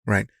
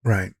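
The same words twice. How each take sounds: The two takes are said the same way.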